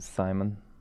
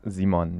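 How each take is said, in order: First: The name starts with a harder English sound. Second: The name starts with a soft German sound. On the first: "compared to Simon" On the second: "It's very soft, I would say"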